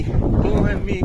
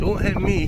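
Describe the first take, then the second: First: Louder, slow, high shriek; drawn-out shriek. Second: Loud, high cry of alarm; alarmed yelp. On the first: Owner shrieks at the cat lashing out, loud and slow. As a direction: stretch it out in real alarm. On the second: Owner yelps at a swiping cat, loud and high. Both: Real, not acted.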